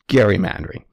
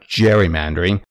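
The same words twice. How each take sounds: First: The word begins with a hard G sound. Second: The word begins with a J sound. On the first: This matches how the original namesake said his name. The speaker calls it right. "It's gerrymandering" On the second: This is how most people say it today. The speaker calls it wrong. "it's not gerrymandering, as almost everyone calls it today"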